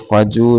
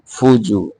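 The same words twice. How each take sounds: First: फजू said with a short plain a, the first vowel unrounded; wrong reading. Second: फुजू with a rounded u on the first syllable; correct reading. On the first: Teacher shows students the wrong vowel, फजू with a. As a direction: demonstrate the mistake फजू with an a instead of u. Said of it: "इसको फजू नहीं पढ़ना". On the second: Teacher corrects the students, फुजू with a clear u. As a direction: say फुजू with u after f. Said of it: "फा के ऊपर पेश है". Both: Shown as a demonstration.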